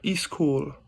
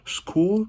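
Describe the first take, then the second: First: An added vowel comes before the s sound. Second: It starts directly with the s sound. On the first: "in South Pacific English, ... there's the I sound at the beginning" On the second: "in standard Canadian English, it's school"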